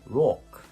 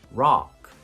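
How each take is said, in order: First: The vowel has slightly rounded lips. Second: The vowel has open, unrounded lips.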